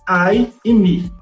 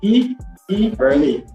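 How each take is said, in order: First: The words use English pronunciation. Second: The words use Portuguese letter pronunciation.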